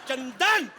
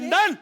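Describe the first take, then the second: First: The name is called in a loving tone. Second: The name is called in an angry tone.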